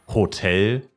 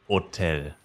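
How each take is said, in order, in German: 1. Das Wort beginnt mit einem hörbaren H-Laut. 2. Das Wort beginnt direkt mit dem Vokal, ohne H. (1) "Es ist nicht Hotel" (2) "sondern Hotel"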